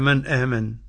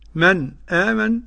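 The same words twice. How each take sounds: First: The two words are joined without any stop. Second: A brief stop comes before the second word. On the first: "وعدم السكت" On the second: "له السكت"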